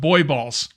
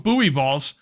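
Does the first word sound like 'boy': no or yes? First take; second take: yes; no. First: The first word sounds exactly like 'boy'. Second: The first word does not sound like 'boy'. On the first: Other people want it said this way. "they're pronounced as boy" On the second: This is how the speaker says it. "So I call them buoy balls"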